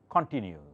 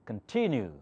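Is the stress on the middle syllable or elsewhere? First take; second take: elsewhere; middle syllable. First: The stress falls away from the middle syllable. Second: The stress falls on the middle syllable. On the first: The speaker calls it wrong. "I did not say continue" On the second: The speaker calls it right. "I said continue because T has the accent"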